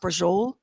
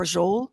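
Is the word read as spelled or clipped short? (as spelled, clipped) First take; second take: clipped; clipped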